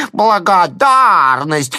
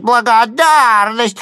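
First: High, slow, loud jeering cry; mocking shouted word. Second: Higher, slow, loud jeering cry; mock shout again. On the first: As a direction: yell it mockingly, drawn out. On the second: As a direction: yell it once more, mocking. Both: A narrator's reading. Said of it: "кричит".

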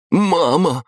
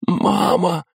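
First: Высокий громкий окрик; броситься с криком к матери; отчаянный зов. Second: Высоко, с надрывом; в ужасе позвать мать; испуганный зов. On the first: Сын бросается к матери. (сын кричит горящей матери) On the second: Сын в ужасе зовёт мать. (горящий сын в ужасе зовёт мать) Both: A narrator's reading.

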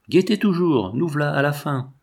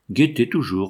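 First: Shepherd driving the farmer to look, urgently; urgent command. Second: Level, even "Guettez toujours" with no lift; a shepherd's flat, repeated command; monotonous. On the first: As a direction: push hard, the end is near. Shepherd pressing at the climax. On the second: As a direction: drone "Guettez toujours" like a rote chant. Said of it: "reprenait monotonement le pâtre". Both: Acted.

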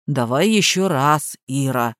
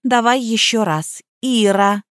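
First: Dull parroting. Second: Said in the usual way. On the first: A narrator's reading. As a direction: repeat it like a parrot, low. Gardener parrots flatly.

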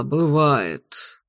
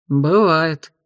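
First: Said in the usual way. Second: Indifferent shrug. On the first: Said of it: "согласился ректор". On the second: A narrator's reading. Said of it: "равнодушно пожал плечами Асти".

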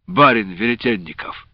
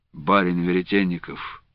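First: Said in the usual way. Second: Low, quiet, simmering anger; angry. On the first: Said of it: "Это ты, что ли, его нашёл?". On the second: A narrator's reading. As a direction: hold the anger down. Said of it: "с явным гневом прервал".

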